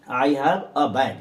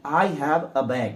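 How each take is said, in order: First: Said in the usual way. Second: Very slow, each word of I have a bag spaced out; slow model sentence. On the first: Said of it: "इसलिए a bag". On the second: Shown as a demonstration. Teacher modelling the sentence slowly for learners. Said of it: "तो ए बैग".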